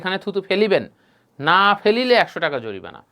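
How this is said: The pause comes before the word না.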